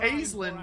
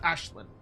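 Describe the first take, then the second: First: The name is said the in-game way. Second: The name is said the real-world way. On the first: The speaker calls it wrong. "what he says in game, um, is how Games Workshop chose to have it pronounced" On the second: The speaker calls it right. "the I R L correct pronunciation would be"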